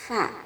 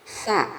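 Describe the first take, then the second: First: The tongue tip touches the upper teeth, no hiss. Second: The tongue sits back, giving a whistling hiss. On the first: The speaker calls it right. "ujung lidah nempel ke gigi seri yang atas" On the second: The speaker calls it wrong. "ujung lidahnya kurang maju, sehingga mirip dengan sin"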